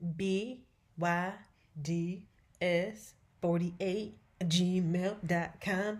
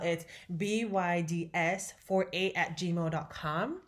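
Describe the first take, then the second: First: It is said more slowly. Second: It is said at normal speed.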